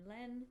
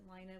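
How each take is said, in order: First: The vowel rhymes with the word ten. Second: The vowel rhymes with the word fine. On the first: "the double meaning, of course, with, with French and Len" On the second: "because they are in Finland, they do pronounce it Line"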